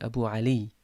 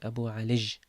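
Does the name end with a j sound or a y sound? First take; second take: y sound; j sound. First: The name ends with a y sound. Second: The name ends with a j sound. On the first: "it should have been Abu Ali" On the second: "the ya is changed into a jim. So we say Abu Alij"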